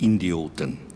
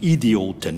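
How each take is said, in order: First: The word has an n after the first vowel. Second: The word has no n after the first vowel. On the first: The speaker calls it wrong. "nicht Indioten" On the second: The speaker calls it right. "Und Idioten"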